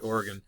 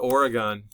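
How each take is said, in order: First: Oregon is pronounced the local way. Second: Oregon is pronounced the non-local way. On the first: The speaker calls it right. "They always want to say Oregon" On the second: The speaker calls it wrong. "anybody from Oregon will um, cringe at my pronunciation"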